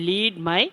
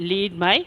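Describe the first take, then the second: Both takes have the same delivery.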